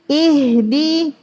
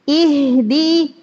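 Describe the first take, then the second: No difference in how they are said.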